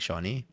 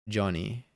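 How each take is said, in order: First: The name begins with a soft 'sh' sound. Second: The name begins with a hard 'j' sound. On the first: "Like I would say like Shoni" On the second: "How would I say it without the Argentinian accent?"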